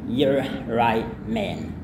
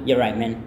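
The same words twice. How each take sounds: First: The phrase is said slowly and carefully. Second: The phrase is said quickly and run together.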